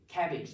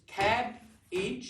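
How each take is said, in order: First: The word is said as one unbroken unit. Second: The word is split by a pause between syllables. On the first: The speaker calls it wrong. "you've got all that word" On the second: The speaker calls it right. "you've only got to remember two parts"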